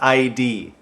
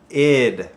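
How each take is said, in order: First: It is spelled out as two separate letters. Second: It is said as one short word. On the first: The speaker calls it wrong. "not I D" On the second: The speaker calls it right. "It's pronounced id"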